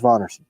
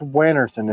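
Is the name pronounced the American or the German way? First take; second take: German; American. First: The name is said with a German pronunciation. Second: The name is said with an American pronunciation. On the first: "If you're in Germany, that says Vonnerson" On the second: "If you're in America, that says Wannerson"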